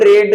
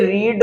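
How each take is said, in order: First: The vowel is a short e sound. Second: The vowel is a long ee sound. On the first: It is the past form of the verb. "बोला जाता है second form में रेड" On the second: It is the present form of the verb. "रीड first form होती है"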